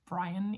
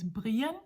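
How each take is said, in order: First: The name has an English pronunciation. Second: The name has a Danish pronunciation.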